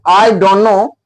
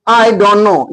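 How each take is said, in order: The two takes are said the same way.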